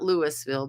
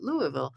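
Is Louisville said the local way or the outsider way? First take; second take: outsider; local. First: It is said the way outsiders pronounce it. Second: It is said the way locals pronounce it. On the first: The speaker is not from there. The speaker calls it wrong. "not Louisville" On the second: The speaker is from there or has been there. The speaker calls it right. "but Louisville"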